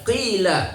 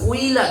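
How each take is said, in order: First: No glide follows the first consonant. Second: A w-like glide follows the first consonant. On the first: The speaker calls it right. "tapi qila" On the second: The speaker calls it wrong. "tidak dengan kuila"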